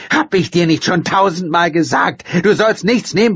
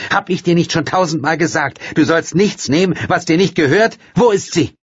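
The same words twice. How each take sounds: First: High, loud scolding yell; mother yelling at her daughter. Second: High, loud angry scolding; mother scolding her daughter. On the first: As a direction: scold at full voice. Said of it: "brüllte sie". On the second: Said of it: "rief Leonora zornig". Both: Acted.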